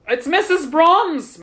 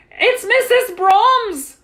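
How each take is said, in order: First: High, loud, slow exclamation; startled exclamation. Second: Very high, loud, drawn-out shout; alarmed cry. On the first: Superintendent turns toward disturbance, startled exclamation. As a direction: exclaim on recognizing her, short of screaming. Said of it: "Mister Bozeman said, turning toward the disturbance". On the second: Superintendent reacts to commotion, high alarmed shout. Cry at woman's hysterical entrance. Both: A narrator's reading.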